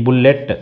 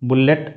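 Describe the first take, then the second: No difference in how they are said.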